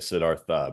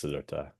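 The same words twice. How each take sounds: First: The th is said like English th. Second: The th is an aspirated t sound. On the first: The speaker calls it wrong. "we always say Siddhartha" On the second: The speaker calls it right. "aspirated T H"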